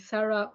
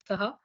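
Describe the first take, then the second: First: The name has an English pronunciation. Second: The name has a French pronunciation.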